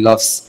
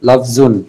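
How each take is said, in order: First: The word ends on a bare consonant. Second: The word ends with an added -un. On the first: "যেভাবে পড়া হয় আমরা ওইভাবেই পড়ি লফজ" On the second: "মূলত লফজুন জদের উপর জর উপরে দুই পেশ দিয়ে হবে"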